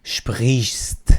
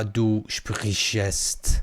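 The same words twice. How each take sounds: First: "sprichst" said as one syllable, no e; the correct form, slow and firm; no extra vowel. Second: "du sprichst" said as du shpri-shest, with an extra e; the learners' mistake, stretched slowly; wrong extra vowel. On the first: Teacher gives the correct form: sprichst in one syllable. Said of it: "ا نداره دیگه اینجا". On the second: Teacher mocks the learners' mistake: du sprichst with extra e. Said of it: "نیایید بگید". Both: Shown as a demonstration.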